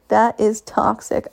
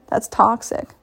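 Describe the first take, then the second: First: That is toxic, slow, each word weighted; slow emphasis. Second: Said in the usual way. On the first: Real, not acted. To listeners, insisting the behaviour is toxic, slow stress. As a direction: lean hard on every word.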